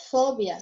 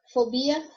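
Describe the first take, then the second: First: Fobia with the stress on FO. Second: Fobia with the stress on BI. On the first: Teacher gives the Spanish take, stress on FO in fobia. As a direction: say fobia as FObia, falling. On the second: Teacher gives the Portuguese take, stress on BI in Fobia. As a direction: say Fobia as foBIa, rising. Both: Shown as a demonstration. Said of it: "porque vai mudar a sílaba tônica".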